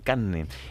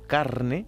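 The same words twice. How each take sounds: First: The r sound is dropped and the n doubled. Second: The r sound before the n is pronounced. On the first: "la R, sí, casi que no se pronuncia y se dice carne" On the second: "por ejemplo, carne"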